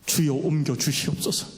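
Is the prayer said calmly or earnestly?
calmly. The prayer is said in a calm, plain way.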